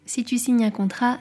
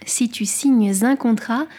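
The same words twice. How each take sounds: First: No linking sound between signes and un. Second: A z sound links signes to un. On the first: The speaker calls it right. "c'est tant mieux pour toi" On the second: The speaker calls it wrong. "ça veut dire que je parle pas bien français"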